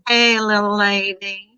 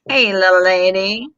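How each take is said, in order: First: It is said in a southern American accent. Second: It is said in the speaker's ordinary accent.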